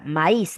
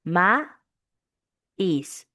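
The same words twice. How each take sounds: First: Said in the usual way. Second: "Ma-, is" as two beats with a clear pause between; separated syllables. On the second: Shown as a demonstration. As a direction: break "Ma-, is" apart, rising on Ma, falling on is. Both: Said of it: "Separación y unión de vocales".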